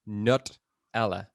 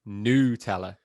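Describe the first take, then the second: First: The first syllable has a vowel other than 'oo'. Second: The first syllable is said with an 'oo' sound. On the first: This is how most people say it. "seventy-eight percent are saying" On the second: This is how a smaller group says it. "like N O U, Tella"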